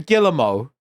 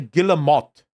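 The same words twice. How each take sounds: First: The name is said with a French sound. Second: The name is said with an English sound. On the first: The speaker calls it wrong. "I'm trying to be too French" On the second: The speaker calls it right. "I should say Guillemot"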